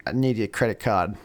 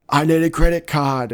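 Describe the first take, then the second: First: Said in the usual way. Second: Loud, high plea under fire; acted urgent demand, raised and loud; urgent shout. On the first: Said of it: "the tech support is like". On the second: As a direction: yell it as if pinned down by gunfire. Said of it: "while they're under fire".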